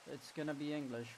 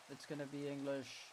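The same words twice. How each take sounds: The two takes are said the same way.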